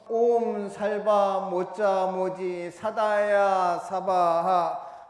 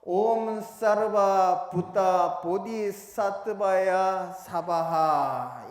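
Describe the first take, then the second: First: It uses the Koreanized sounds salba moja moji sadaya. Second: It uses the original sounds sarva buta bodhisattvaya. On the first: "이거는 한국화된 발음이고요" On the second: "본래 산스크리트어 발음으로는요"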